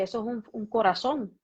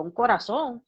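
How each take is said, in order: First: Said in the usual way. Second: Louder, incredulous echo question; imitating her own stunned reply; retold disbelief. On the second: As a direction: throw it back as a startled question. Echoes doctor's news as disbelieving question.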